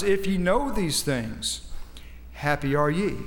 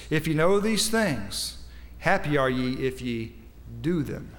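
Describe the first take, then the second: First: Said in the usual way. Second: Slow reading, pausing before "do them"; right emphasis. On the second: Shown as a demonstration. Preacher rereading the verse for his congregation, with the right emphasis. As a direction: set "do them" apart after a short pause. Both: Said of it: "read that with the right emphasis".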